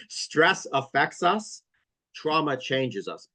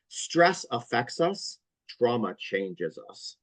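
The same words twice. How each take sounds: First: Slow, deliberate, stress rising then trauma falling; repeated for dictation. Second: Slow, weighty, stress on stress and trauma; slow emphatic maxim. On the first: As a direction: say it slowly so they can write it. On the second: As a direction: deliver it like a quotable line, slowly. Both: Shown as a demonstration. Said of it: "say that again so everybody can write that down".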